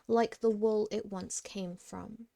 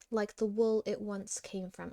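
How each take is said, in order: First: The line ends with extra emphasis. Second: The line ends without extra emphasis. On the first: The speaker calls it right. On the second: The speaker calls it wrong.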